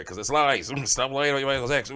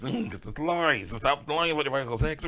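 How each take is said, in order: First: Loud mocking laugh on the repeat; louder laughing retort. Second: Louder, higher mocking laugh through the words; mocking laugh, pitched up and loud; laughing retort. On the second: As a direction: laugh it off while jabbing back. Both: Real, not acted.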